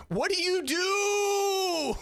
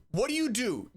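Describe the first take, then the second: First: High, slow, hammed-up crying shout; mock anguished wail. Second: Said in the usual way. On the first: Reacting to the cringe, mock crying wail. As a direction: wail it like fake despair.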